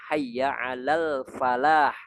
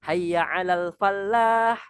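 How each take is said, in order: First: The l in falah is short, single. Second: The l in falah is held doubled. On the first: Come toward victory. The speaker calls it right. "yang betul ... Tidak ada tasydid di dalamnya" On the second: Come toward a farmer. The speaker calls it wrong. "tiba-tiba mentasydidkan huruf lamnya"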